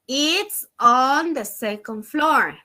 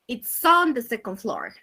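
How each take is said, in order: First: The words are said separately without linking. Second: The words run together with linked sounds. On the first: "So normally we say" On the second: "Using the linking sound, we say"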